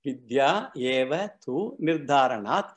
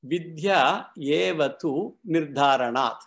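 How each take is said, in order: First: Slow, with "nirdharanat" rising at the close; slow, measured recital ending on a lift at "nirdharanat"; slow sutra recitation, rising end. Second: Slow and deliberate, weight on "Vidya"; slow, measured recital stressing "Vidya"; slow sutra recitation. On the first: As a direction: repeat "Vidya eva tu nirdharanat" slowly, lifting "nirdharanat". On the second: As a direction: recite "Vidya eva tu nirdharanat" slowly, leaning on "Vidya". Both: Shown as a demonstration. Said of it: "let us give the word analysis of the sutra".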